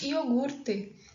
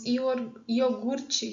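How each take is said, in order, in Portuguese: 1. A última consoante é um t simples. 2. A última consoante é um som de ch. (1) "nós não falamos iogurte" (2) "essa produção do T, né, como ch"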